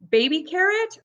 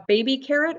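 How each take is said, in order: First: Put-on "Baby carrot" said high and rising; high questioning. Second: Said in the usual way. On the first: Shown as a demonstration. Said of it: "I think they call them baby carrots". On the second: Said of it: "what do they call these".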